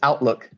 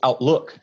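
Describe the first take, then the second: First: The stress is on the first syllable. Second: The stress is on the second syllable. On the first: It is used as a noun. "If you use it as a noun" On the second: It is used as a verb. "If you use it as a verb"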